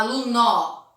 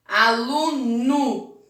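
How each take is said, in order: First: Aluno with an open final o, ah-loo-noh; spelled-out aluno. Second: Aluno said slowly, the final o as u, ah-loo-noo. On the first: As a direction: end aluno on a clear o. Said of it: "Não fala aluno". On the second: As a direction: end aluno with an oo sound. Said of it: "mas o som é de U". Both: Shown as a demonstration.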